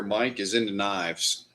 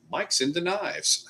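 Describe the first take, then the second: First: Said in the usual way. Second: "Mike's into knives" pitched up and slowed, "knives" falling as it clicks; dawning realization. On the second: Retold or imitated. Streamer retelling his own realization about Mike, high slow dawning. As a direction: let the penny drop on "knives". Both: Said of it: "And I'm like".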